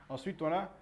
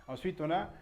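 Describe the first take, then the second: The two takes are said the same way.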